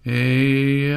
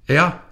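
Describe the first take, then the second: First: It is said long and drawn out. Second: It is said very quickly, like a bark.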